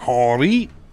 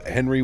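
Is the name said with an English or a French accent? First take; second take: French; English. First: The name is said in a French accent. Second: The name is said in a plain English accent.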